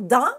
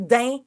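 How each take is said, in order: First: The vowel is a nasal 'an' sound. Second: The vowel is a nasal 'in' sound. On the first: This is the usual way of saying it. "au lieu de dire dans" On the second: This is the shortened local way of saying it. "on dit din"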